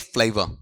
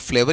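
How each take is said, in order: First: The first vowel glides as a diphthong. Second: The first vowel is a single steady vowel. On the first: The speaker calls it right. "तुम बीच में diphthong नहीं लाओगे" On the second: The speaker calls it wrong. "मोनोप्थोंग ले आओगे"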